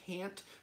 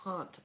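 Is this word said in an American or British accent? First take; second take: American; British. First: It is said in an American accent. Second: It is said in a British accent. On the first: "American English, it would be can't" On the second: "British English, it would be can't"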